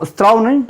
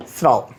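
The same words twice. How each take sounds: First: स्राव said as इस्त्राव with a rising tune; mock the wrong स्राव, pitch up; wrong pronunciation. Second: स्राव said low and short as स्राव; correct pronunciation. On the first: (गलत उच्चारण इस्त्राव) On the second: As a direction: settle firmly on the right स्राव. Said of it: "तो स्राव नहीं". (सही उच्चारण स्राव, नीचा स्वर) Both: Shown as a demonstration.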